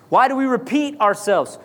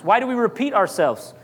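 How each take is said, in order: First: "Why do we repeat ourselves?" said over, lifted and more emphatic; repeated for emphasis. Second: Said in the usual way. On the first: Shown as a demonstration. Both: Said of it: "For emphasis".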